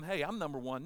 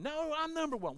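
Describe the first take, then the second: First: Mock disciple staking his claim; bickering boast. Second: High-pitched mock protest; bickering retort. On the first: Disciples arguing over who is best, mildly boastful. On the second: Disciple arguing back over who is best, high indignant retort. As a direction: swoop up high to contradict a rival. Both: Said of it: "they're arguing about who's the best".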